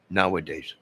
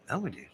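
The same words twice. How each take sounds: First: Said in the usual way. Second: Nowadays squeezed to "nah-days", high and soft; mock drawled Nowadays; southern nowadays. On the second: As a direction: say Nowadays the way a Southerner drops the middle. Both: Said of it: "they're from down south".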